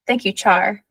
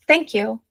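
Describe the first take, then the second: First: "Thank you, Char" with Char added as the correction; correcting. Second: Said in the usual way. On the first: A narrator's reading. Prince corrects Ella on his name, correcting, "Char" rising at the end. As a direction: gently correct her, landing on "Char" with a rise. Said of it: "he corrected".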